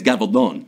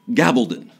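First: The name is said with a Spanish pronunciation. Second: The name is said with an American English pronunciation. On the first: The speaker calls it right. "In Spain, it's Gabaldon. That's the proper" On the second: The speaker calls it wrong. "we ignorant Americans pronounce it Gabaldon"

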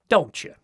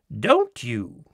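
First: The two words are run together as one. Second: The two words are kept separate and distinct. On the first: This is how Americans say it. The speaker calls it right. "we always say, ... This is much better" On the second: This is how English ladies say it. The speaker calls it wrong. "making two separate and distinct words of it"

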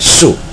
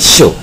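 First: The syllable is pronounced like su. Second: The syllable is pronounced like xiu. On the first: The character means a dwelling place. "跟宿舍一起结合念的话，它念宿" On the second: The character means a star or constellation. "它要念秀"

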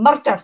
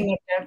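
First: It is said Scottish-style with a rolled R. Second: It is said plainly without a rolled R.

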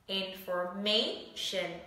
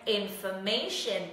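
First: The word is said slowly, syllable by syllable. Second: The word is said quickly, as one unit.

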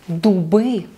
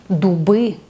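No difference in how they are said.

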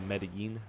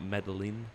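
First: The double L is said as a Y sound. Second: The double L is said as an English L. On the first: The speaker calls it right. "you say Medellin" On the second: The speaker calls it wrong. "Not Medellin"

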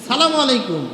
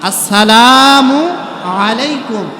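First: The opening syllables are dropped and the greeting is clipped. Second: Every syllable of the greeting is said in full. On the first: The greeting is given carelessly. The speaker calls it wrong. "কি সালাম দিচ্ছেন আপনি?" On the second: The greeting is given properly and respectfully. The speaker calls it right. "শুদ্ধ করে দেন সালামটা"

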